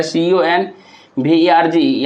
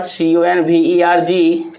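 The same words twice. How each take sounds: First: "सी ओ एन वी ई आर जी" with a pause after एन; split into two syllables. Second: Said in the usual way. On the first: Shown as a demonstration. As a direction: spell "सी ओ एन वी ई आर जी" as two chunks, breaking after एन. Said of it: "यानी कि दो गो syllable है". ("सी ओ एन वी ई आर जी" में एन के बाद रुककर) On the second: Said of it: "converge को अगर देखा जाए".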